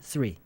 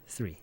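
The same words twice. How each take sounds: First: The word begins with a th sound. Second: The word begins with an s sound. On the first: The speaker calls it right. "three여야 되는 게" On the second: The speaker calls it wrong. "S 발음이 나버리니까"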